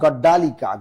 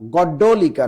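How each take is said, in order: First: The vowel after 'gadd' is a long a. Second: The vowel after 'gadd' is a short o. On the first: The speaker calls it wrong. "নট গড্ডালিকা" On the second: The speaker calls it right. "গড্ডলিকা not গড্ডালিকা"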